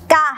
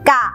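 First: The syllable has a falling tone. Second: The syllable has a low tone. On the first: "มีรูปวรรณยุกต์โทมีเสียงวรรณยุกต์โท" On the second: "มีรูปสามัญแต่มีเสียงวรรณยุกต์เอก"

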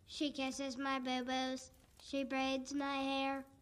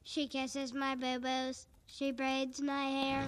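First: It is said flatly, like a zombie. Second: It is said with a bit more life.

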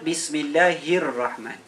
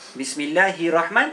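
First: The r sound is held long, doubled. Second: The r sound is short, not doubled. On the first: The speaker calls it right. "Dia kena sebut bismillahirrahman" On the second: The speaker calls it wrong. "Bismillahirrahman tak betul"

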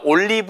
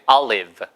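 First: It is said as the Korean loanword 'ollibeu'. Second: It is said with an American English pronunciation. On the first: The speaker calls it wrong. "올리브가 아니고" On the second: The speaker calls it right. "미국식 발음이니까"

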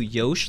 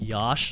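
First: The vowel sounds like the start of Yoshi. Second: The vowel sounds like the vowel in Josh. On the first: "Yosh like Yoshi" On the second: "Yosh like Josh"

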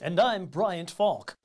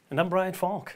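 First: It sounds like a formal announcer. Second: It sounds relaxed and conversational.

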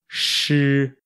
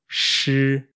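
No difference in how they are said.

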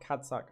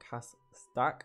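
First: It is said with a d sound: cadsac. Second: It is said with an s sound: casdaq. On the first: The speaker calls it wrong. "I quite often say CADSAC" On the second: The speaker calls it right. "not CASDAQ"

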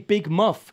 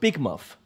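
First: The stress falls on the word muff. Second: The stress falls on the word big.

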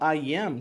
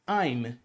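First: It is said as two full separate words. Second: It is contracted into one short syllable. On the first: "o I am se torna" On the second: "se torna I'm"

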